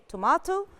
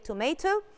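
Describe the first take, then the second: First: It is said with a British pronunciation. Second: It is said with an American pronunciation. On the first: "the British people say tomato" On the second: "ال American people say tomato"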